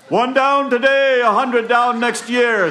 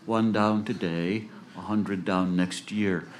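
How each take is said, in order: First: Very high, loud, slow holler; yelling out. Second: Said in the usual way. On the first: Acted. Jack calling to a funeral party, high drawn-out yell. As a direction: holler it slowly at full voice. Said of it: "Jack yells out to the funeral party".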